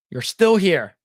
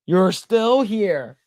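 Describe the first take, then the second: First: Mock outraged. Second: Slow drawn-out. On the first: Storyteller calling out the neighbor in mock outrage. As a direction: call it out like catching her red-handed. Repeated punchline. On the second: Pretend. Storyteller drawing out the neighbor's line slowly, loud. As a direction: stretch "still" out slowly and loud.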